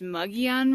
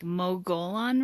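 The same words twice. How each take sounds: First: It is said differently from its spelling. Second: It is said just as it is spelled. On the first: This is the local pronunciation. "I think it's pronounced Mogollon Rim" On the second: This is a reading of the spelling. "it's spelled like Mogollon Rim"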